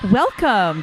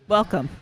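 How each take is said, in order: First: The greeting sounds lively and excited. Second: The greeting sounds flat and unexcited. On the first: The speaker calls it right. "Let me try that again" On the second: The speaker calls it wrong. "You don't sound excited"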